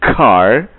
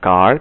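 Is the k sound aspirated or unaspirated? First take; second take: aspirated; unaspirated. First: The k bursts out with a puff of air. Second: The k is soft, without a puff of air. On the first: The speaker calls it right. "tetapi car" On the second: The speaker calls it wrong. "Mereka tidak bisa bilang car"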